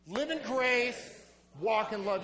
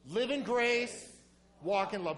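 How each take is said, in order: First: It is said forcefully, with strong conviction. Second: It is said plainly, with ordinary energy. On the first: "One more time, but like you mean it" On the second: "Say it with me"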